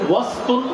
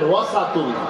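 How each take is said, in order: First: No vowel is heard after the s sound. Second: A short a vowel follows the s sound. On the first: Something is anywhere inside, not necessarily the exact middle. "সিনের মধ্যে সাকিন দিয়েও পড়তে পারবেন" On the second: Something is at the exact center point. "সিনের মধ্যে জবর দিয়েও পড়তে পারবেন"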